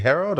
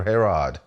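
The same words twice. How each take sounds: First: Herod said as HEH-rohd; Herod with long O. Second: Herod said as HEH-rod, questioning; Herod with open O. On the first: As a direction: say Herod with a long "oh" in the second syllable. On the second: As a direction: say Herod with an "ah" in the second syllable. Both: Shown as a demonstration. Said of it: "is it Herod or Her".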